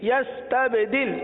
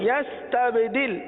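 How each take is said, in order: No difference in how they are said.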